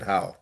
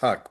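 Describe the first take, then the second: First: The name ends with an open vowel sound. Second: The name ends with a consonant sound. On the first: This is how the family says the name. "my parents said how" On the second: This is how the name is said in Ireland. "in Ireland it's pronounced Huck"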